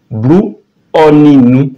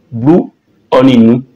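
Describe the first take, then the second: No difference in how they are said.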